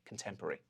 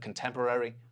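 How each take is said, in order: First: The '-rary' ending is reduced to a single '-ry'. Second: Every syllable, including the full '-rary' ending, is said. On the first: "we might say contemporary" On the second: "instead of contemporary"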